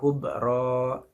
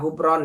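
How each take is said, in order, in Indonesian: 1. Kata itu berakhir dengan vokal, tanpa n. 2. Kata itu berakhir dengan bunyi n. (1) "tapi dibaca hubro" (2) "Jangan dibaca hubron ya"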